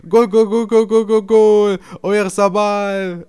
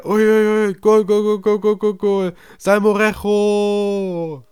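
First: Loud, high, drawn-out goal call; stadium announcer. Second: Loud, high goal call, name stretched out; stadium announcer. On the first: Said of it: "der Stadionsprecher". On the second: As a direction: shout the goal to the whole stadium. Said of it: "Oder, oder der andere". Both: Retold or imitated.

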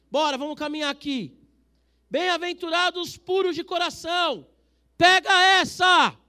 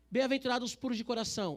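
First: High, loud, slow proclamation; shouting. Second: Said in the usual way. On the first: Real, not acted. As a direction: shout it so no one drifts. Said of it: "Tô gritando porque vocês estão começando". (gritando o versículo para a igreja) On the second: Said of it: "Tô gritando".

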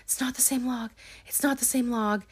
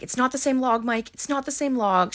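First: High, softened mock-tearful repeat; mildly whiny retold protest; imitated crying repetition. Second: High-pitched mock insistence; raised-pitch, emphatic retelling; retold insistent protest. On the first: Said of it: "She starts crying". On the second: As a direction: imitate someone frantically repeating a denial. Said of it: "saying it over and over again".

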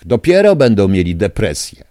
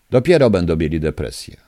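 First: Loud vow. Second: Said in the usual way. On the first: Real, not acted. Caller vows revenge on officials.

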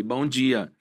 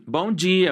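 First: Said in the usual way. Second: Bright, lifted, peppy good morning; cheery cashier greeting. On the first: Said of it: "De boa, assim". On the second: Retold or imitated. Cashier greeting a hungover customer, peppy and bright. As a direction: chirp it like an upbeat cashier. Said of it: "cadê a animação dos vídeos?".

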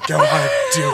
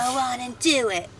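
First: Much higher, hammed-up sultry imitation; mock her suggestive tone in a high voice; mocking salacious. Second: Sultry, suggestive delivery; salacious. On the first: Imitating his co-host's salacious line in mock tone. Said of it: "the way you said that". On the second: Real, not acted. Co-host says the segment title salaciously. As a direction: say it like a dirty come-on. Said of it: "That sounded so salacious and dirty".

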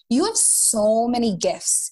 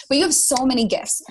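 First: Slight Minnesota accent; a hint of Minnesotan vowels. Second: Said in the usual way. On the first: Real, not acted. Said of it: "I sounded so Minnesotan". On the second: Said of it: "Sorry, everyone".

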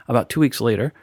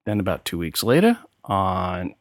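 First: Said in the usual way. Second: Slipping into a New York accent on "later"; a light New York accent on "two weeks later". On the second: Real, not acted. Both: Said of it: "my New York accent came out there".

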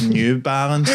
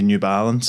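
First: "New Balance" stretched out slowly; slow, exaggerated "New Balance"; slightly exaggerated pronunciation. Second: Said in the usual way. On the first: Shown as a demonstration. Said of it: "there's slight exaggeration". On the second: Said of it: "I would say New Balance".

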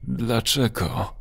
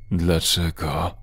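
First: A touch of fear, "Dlaczego?" sinking down; terrified question. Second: A lower, slow, strange-voiced "Dlaczego?" drawn out and rising; mild creature roar asking "Dlaczego?"; monster's roar. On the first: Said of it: "z wyraźnym przerażeniem". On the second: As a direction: groan "Dlaczego?" slowly like a creature neither male nor female. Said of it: "Ryknął głosem, który nie był ani wyraźnie męski, ani żeński". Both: A narrator's reading.

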